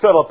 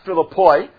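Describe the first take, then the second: First: The name ends with a 'pee' sound. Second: The name ends with a 'poy' sound. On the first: This is the usual everyday pronunciation. "that's how we typically pronounce it" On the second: This is the original pronunciation. "It's actually pronounced Philippoi"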